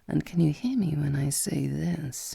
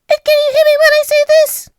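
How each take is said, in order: First: It is spoken in a very deep voice. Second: It is spoken at a much higher pitch.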